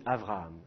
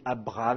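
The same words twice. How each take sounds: First: "Avraham" with a soft rubbed v in the middle; Hebrew v pronunciation. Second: "Abraham" with a firm stopped b; French b pronunciation. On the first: Teacher shows students the Hebrew way, a fricative v. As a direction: say "Avraham" with the lips only half closed on the v. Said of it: "en hébreu on dit Avraham". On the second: Teacher shows students the French way, a stopped b. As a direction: say "Abraham" with the lips fully closed on the b. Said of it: "avec un B". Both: Shown as a demonstration.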